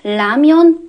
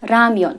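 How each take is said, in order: First: The word begins with a clear L sound. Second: The word begins with an R sound. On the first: "بعضی میخونن لمیان" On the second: "بعضی موقع ممکنه شما بشنوید رمیان"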